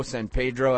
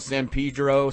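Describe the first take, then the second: First: Spanish-leaning "Pedro", first vowel as in "day"; "Pedro" rhyming its first syllable with "day"; Pedro as PAY-dro. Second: Anglicized "Pedro", first vowel as in "see"; "Pedro" rhyming its first syllable with "see"; Pedro as PEE-dro. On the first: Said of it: "that track was called San Pedro". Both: Shown as a demonstration.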